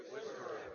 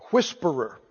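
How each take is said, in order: First: Whispered. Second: Said in the usual way. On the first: Shown as a demonstration. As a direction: whisper the word. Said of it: "Somebody say". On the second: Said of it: "The margin says".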